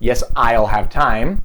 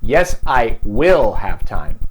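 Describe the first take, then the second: First: The word will is contracted to I'll. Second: The word will is said in full. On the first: It is a neutral statement. "En vez de decir" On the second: The speaker insists against someone's doubt. "no uso la contracción"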